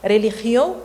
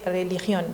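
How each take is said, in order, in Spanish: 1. La n final es aspirada o debilitada. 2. La n final se pronuncia completa.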